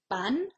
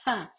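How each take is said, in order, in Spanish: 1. La p se dice sin soplo de aire. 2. La p se dice con soplo de aire. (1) "no se mueve" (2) "el papel se mueve. Si se mueve, estamos haciendo aspiración y hay que modificar esto"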